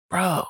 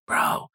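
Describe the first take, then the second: First: Said in the usual way. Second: Mock whispered "Bro." without voice; hushed retold bro between strangers. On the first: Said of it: "And he's like". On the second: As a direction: breathe "Bro." under your breath. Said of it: "He, like, whispers".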